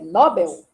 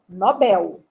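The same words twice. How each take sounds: First: The stress is on the first syllable. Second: The stress is on the last syllable. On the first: It may follow the original language. "se alguém que disser que o nome é Nobel, eu não vou discutir" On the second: It follows Portuguese spelling rules. "eu digo Nobel, por causa do L. Porque não tem acento no nó"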